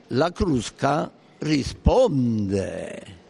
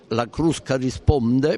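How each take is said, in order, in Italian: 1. È detta con intonazione marcata ed enfatica. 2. È detta in modo piatto, senza intonazione marcata. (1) "se noi gli diamo una certa intonazione" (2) "può essere preso così con valore neutro, senza intonazioni"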